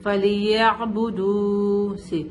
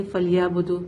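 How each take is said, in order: First: فَلْيَعْبُدُوا slow with clear ain; careful reading. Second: فَلْيَعْبُدُوا with ain dropped; wrong rushed reading. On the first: Teacher shows student careful reading, slow. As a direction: sound every letter of فَلْيَعْبُدُوا. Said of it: "ہم جلدی میں ایسے نہیں بولیں گے". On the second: Teacher shows student the rushed mistake. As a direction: rush فَلْيَعْبُدُوا and drop the ain. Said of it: "میں نے آئین کو بولا ہی نہیں". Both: Shown as a demonstration.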